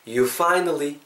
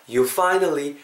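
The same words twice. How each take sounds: The two takes are said the same way.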